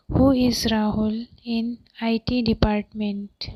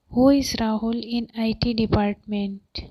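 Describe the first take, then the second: First: Measured, with small gaps between word groups; careful dictation pace; deliberate teaching repeat. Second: Said in the usual way. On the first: Shown as a demonstration. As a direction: spell the sentence out for learners. Teacher repeats translation more slowly.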